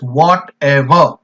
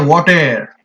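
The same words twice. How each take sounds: First: The word is said with three syllables. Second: The word is said with two syllables. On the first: "Whatever has three syllables, and we pronounce it as whatever" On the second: "We say whatever. In two syllables"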